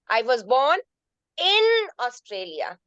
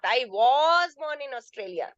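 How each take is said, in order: First: The stress falls on the word in. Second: The stress falls on the word was. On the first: It was inside the country, not outside it. "That means in Australia, not outside Australia" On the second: It rejects a suggestion that it was not so. "Second sentence you see I was"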